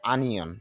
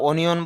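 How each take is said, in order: First: The first vowel is an open 'a' sound. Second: The first vowel is a rounded 'o' sound. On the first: The speaker calls it right. "তবে শুদ্ধ উচ্চারণ হবে আনিয়ন" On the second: The speaker calls it wrong. "যদিও আমরা অনিয়ন বলে থাকি"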